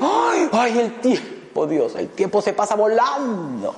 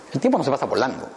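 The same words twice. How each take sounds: First: High, wailing complaint about time flying; mock lament. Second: Said in the usual way. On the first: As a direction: sigh it out like a fretting person, slow. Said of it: "Y dice". (lamento exagerado y agudo) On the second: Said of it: "No, el tiempo simplemente transcurre".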